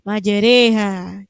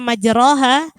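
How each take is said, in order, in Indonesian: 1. Vokal setelah r condong ke bunyi e. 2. Vokal setelah r adalah bunyi a biasa. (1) "Jadi memiringkan harokat fathah pada kasroh" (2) "Yang aslinya majroha"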